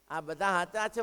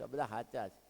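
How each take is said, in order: First: The same admission, now voiced up and firm; firm insistence. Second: Softer, lower, admitting it quietly; soft lowered confession; humble admission. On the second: Retold or imitated. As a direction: say it quietly, almost to yourself. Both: Woman confesses, repeating herself.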